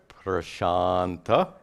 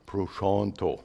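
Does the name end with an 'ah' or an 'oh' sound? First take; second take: ah; oh. First: The name ends with an 'ah' vowel. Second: The name ends with an 'oh' vowel. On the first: This is the Sanskrit form of the name. "In Sanskrit" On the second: This is the Bengali form of the name. "In Bengali"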